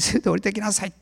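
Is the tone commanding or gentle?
commanding. It is said in a commanding tone. It is an order. The speaker calls it wrong. "もうそういう命令口調じゃなかったですね"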